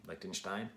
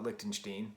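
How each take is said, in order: First: "Lichtenstein" said as LICK-ten-shtine; -stine pronunciation. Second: "Lichtenstein" said as LICK-ten-shteen; -steen pronunciation. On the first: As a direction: say "Lichtenstein" ending like "fine". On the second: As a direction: say "Lichtenstein" ending like "seen". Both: Shown as a demonstration. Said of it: "I think it's Lichtenstein".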